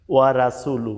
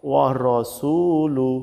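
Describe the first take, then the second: First: ওয়া রাসুলু with a light "ra" and short vowels; common mistaken reading. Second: Slow ওয়া রসুলু with rounded "ro", long su; correct heavy ra. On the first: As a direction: say ওয়া রাসুলু as written in Bengali. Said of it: "এখানে কিন্তু আমরা ভুল করে থাকি". (ওয়া রাসুলু, হালকা রা দিয়ে) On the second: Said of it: "এখানে হবে". (ওয়া রসুলু, মোটা র, টেনে) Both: Shown as a demonstration.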